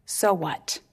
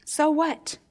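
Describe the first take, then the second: First: "So what?" dropped low and flat. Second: "So what?" pitched up in a different voice; raised so what. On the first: Preacher posing the question to his congregation, low and flat. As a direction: ask "So what?" low, pondering. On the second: Preacher repeating the challenge to his hearers, raised. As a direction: toss back "So what?" high and pointed. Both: Shown as a demonstration. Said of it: "Here's where we ask the question".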